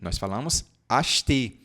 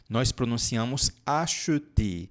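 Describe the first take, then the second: First: It is said quickly with a reduced middle syllable. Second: It is said slowly with every syllable fully pronounced. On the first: This is how it sounds in everyday speech. "no dia a dia a gente não fala dessa maneira" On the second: This is how it sounds in slow speech. "quando a gente fala devagar"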